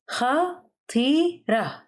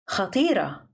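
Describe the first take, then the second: First: "خطيرة" slowly in three separate syllables, pitched up. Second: Said in the usual way. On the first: Shown as a demonstration. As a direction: pause between each syllable of "خطيرة". Vocabulary drill, broken into syllables.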